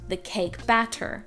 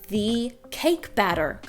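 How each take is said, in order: First: The middle T sounds like a T. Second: The middle T sounds like a D. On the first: "not the cake batter" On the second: "especially with double T's"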